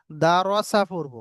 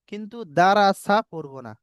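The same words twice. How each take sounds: First: Slow, with রসা given a full rounded র; slow correct reading. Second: রাসা said with a thin spread র, the wrong way; wrong light reading. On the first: Teacher reading the correct form slowly to students. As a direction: draw out দা রসা with a heavy round র. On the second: Teacher showing students the reading to avoid. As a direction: show the mistaken light রাসা. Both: Shown as a demonstration. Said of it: "দুটো পড়া পড়লাম".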